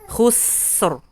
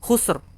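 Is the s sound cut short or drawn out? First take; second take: drawn out; cut short. First: The s sound flows and is drawn out. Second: The s sound is rushed and cut short. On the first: The speaker calls it right. "dia dialirkan dulu" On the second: The speaker calls it wrong. "jangan buru-buru"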